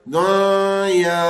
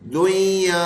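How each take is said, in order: First: The n sound is held with nasalization. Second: The middle n sound is dropped entirely. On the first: "कोई इसके अंदर गुन्ना करते हुए पढ़े" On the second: "नून हटाया बीच में से और आगे एक दूसरे को मिला दिया"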